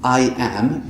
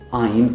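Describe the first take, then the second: First: Both words are said fully and slowly. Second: The two words are contracted into one syllable. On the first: "the slow version" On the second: "that's like a middle version"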